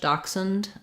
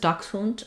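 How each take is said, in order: First: The word is said with an American pronunciation. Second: The word is said with a German pronunciation. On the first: "In American English, dachshund" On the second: "In German it's dachshund"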